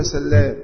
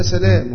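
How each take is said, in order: First: سلام with a doubled l, sallaam. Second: سلام with one light l, salaam; single l. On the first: (سلام بتشديد اللام) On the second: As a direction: say سلام without doubling the ل. (سلام بتخفيف اللام) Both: Shown as a demonstration. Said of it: "هو يقولها سلام".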